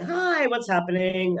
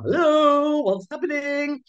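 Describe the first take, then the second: First: It is said like a friendly greeting. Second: It is said in a silly clown voice.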